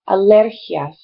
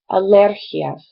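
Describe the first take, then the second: First: The stress is on the second syllable. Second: The same.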